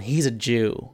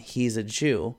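First: The word is drawn out in a sneering tone. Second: The word is said plainly and neutrally. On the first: It is meant as an insult. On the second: It simply identifies someone.

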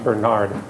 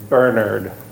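First: The name is pronounced in a non-British way. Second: The name is pronounced in the British way. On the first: "not Bernard. I'm not British, though, so we're going to go with Bernard" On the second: "every British person pronounced it Bernard"

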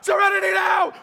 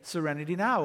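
First: The phrase is shouted loudly. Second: The phrase is said calmly and quietly. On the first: The speaker is too tense to calm down. "he would shout it out" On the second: The words are used as intended, to calm down. "he was supposed to pause and reflect and say"

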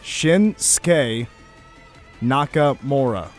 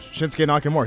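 First: The name is said slowly. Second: The name is said quickly. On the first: The speaker calls it right. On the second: The speaker calls it wrong. "you're saying it so fast"

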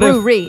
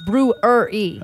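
First: The word is said with two syllables. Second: The word is said with three syllables. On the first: The speaker calls it wrong. "It's not brewery" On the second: The speaker calls it right. "It's three syllables"

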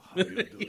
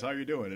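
First: It is spoken with a put-on foreign accent. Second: It is spoken in plain, unaccented American English.

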